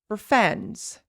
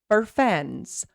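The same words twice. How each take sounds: First: The word for is reduced to fur. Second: The word for is reduced to fur.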